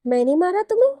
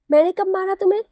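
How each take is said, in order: First: Rising higher and louder in disbelief; can't believe what she just heard; shocked disbelief. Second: Higher, louder outraged question; indignant disbelief. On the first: Wife stunned at husband's accusation, high disbelieving question. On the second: Wife indignantly demanding when she ever hit him. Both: A narrator's reading.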